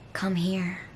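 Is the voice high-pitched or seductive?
seductive. The voice is low and seductive. The speaker calls it right.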